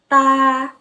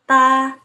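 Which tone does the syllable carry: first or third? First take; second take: first; first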